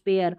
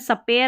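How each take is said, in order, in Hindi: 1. s और p बिना किसी स्वर के जुड़ते हैं। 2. s और p के बीच एक स्वर डाला जाता है। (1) "स्पेयर बोलना है" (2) "सपेयर नहीं"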